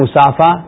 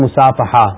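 First: The word ends without an h sound. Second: The word has an h sound before the end. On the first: The speaker calls it wrong. "ایک ہے مصافہ" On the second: The speaker calls it right. "یہ درست تلفظ ہے"

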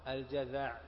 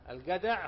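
First: It starts with j and has a th sound. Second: It starts with g and has a plain d. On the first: This is the classical form of the word. "وهو الجذع" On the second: This is how the word is said in Egypt. "فحذفوا نقطة الذال فصارت دالا، وأبدلوا الجيم قافا"

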